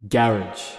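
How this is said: The word is said the British way. The speaker calls it wrong. "in the UK they like to pronounce it in a very weird way"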